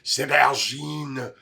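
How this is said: It is said in a French accent.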